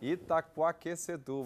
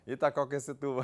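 First: The word is said at a normal pace. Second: The word is said quickly.

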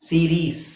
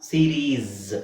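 First: The word ends with an s sound. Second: The word ends with a z sound. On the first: The speaker calls it wrong. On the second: The speaker calls it right.

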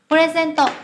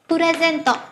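The two takes are said the same way.

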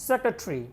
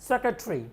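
The two takes are said the same way.

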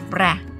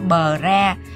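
First: The b glides lightly straight into the r. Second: The b is a separate syllable with a vowel. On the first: The speaker calls it right. "mình nhẹ nhàng nói qua luôn" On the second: The speaker calls it wrong. "đừng có bờ ra"

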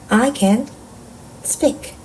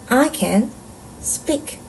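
The two takes are said the same way.

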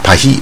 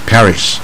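First: The word ends without any s sound. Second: The word ends with an s sound.

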